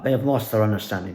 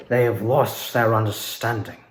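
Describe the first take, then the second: First: Said in the usual way. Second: Muted villain line. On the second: Shown as a demonstration. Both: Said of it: "not doing the full-fledged voice".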